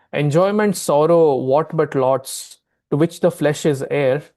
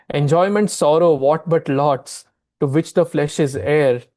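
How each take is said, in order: No difference in how they are said.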